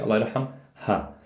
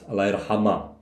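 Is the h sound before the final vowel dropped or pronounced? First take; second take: pronounced; dropped. First: The h sound before the last vowel is clearly pronounced. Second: The h sound before the last vowel is dropped. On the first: "We pronounce the ha. Palestinian, Jordanian" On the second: "Syrian, Lebanese, ah. It's not really pronounced"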